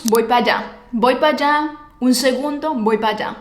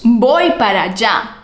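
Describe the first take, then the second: First: "Voy pa' allá" with "pa'" blended into "allá"; reduced pa. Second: "Voy para allá" with full "para". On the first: Teacher showing the everyday contraction. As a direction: run "Voy pa' allá" together casually. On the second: Teacher showing the form natives avoid. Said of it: "No decimos". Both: Shown as a demonstration.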